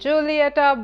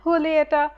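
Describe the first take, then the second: First: The word begins with an English J sound. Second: The word begins with a breathy H sound. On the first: The speaker calls it wrong. "some of y'all must be pronouncing this as" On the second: The speaker calls it right. "it's pronounced with an H sound rather than a J"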